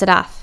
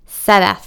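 First: The name is clipped and short. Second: The first vowel is long and drawn out. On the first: "she repeats incorrectly" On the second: "emphasizing the long A"

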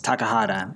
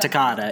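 First: Every syllable of the name is pronounced. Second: One syllable of the name is left out. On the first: The speaker calls it right. "It's Takahata" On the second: The speaker calls it wrong. "It's not Takahata. / Another syllable you're missing"

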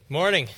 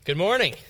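First: The greeting is said weakly, with little energy. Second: The greeting is said with more energy.

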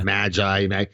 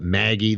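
First: It sounds like the biblical word magi. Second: It sounds like the name Maggie. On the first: "That would be the biblical pronunciation" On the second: "they'll call it Maggie"

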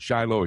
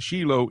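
First: The name is said with an American pronunciation. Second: The name is said with a Hebrew pronunciation. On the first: "you may pronounce it Shiloh here in America" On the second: "but it's Shiloh in Hebrew"

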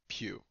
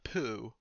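First: It sounds like 'pew', with a y-glide. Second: It sounds like 'poo', without a y-glide. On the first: The speaker calls it right. "it is Pugh" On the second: The speaker calls it wrong. "not Poo, although that's tempting"

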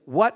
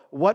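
First: It is said as a forceful exclamation. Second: It is said as a rising question.

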